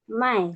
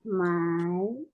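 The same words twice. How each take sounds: First: It is said with the fourth, falling tone. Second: It is said with the third, dipping tone. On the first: It means to sell. "yang ini empat, yang empat" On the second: It means to buy. "Kalau untuk membeli tiga"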